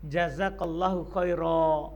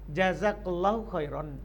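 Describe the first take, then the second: First: The last word ends in a long a. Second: The last word ends in -an. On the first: The speaker pauses after the phrase. "kita berhenti dengan alif" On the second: The speaker continues without pausing. "boleh kita tanwin"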